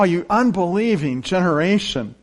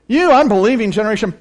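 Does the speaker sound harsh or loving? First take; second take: loving; harsh. First: It is said in a tender, sorrowful tone. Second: It is said in a harsh, scolding tone. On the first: The speaker is grieved but still cares. The speaker calls it right. "In his love, he cares for that boy" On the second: The speaker is fed up and dismissive. The speaker calls it wrong. "That's not the tone I hear at all"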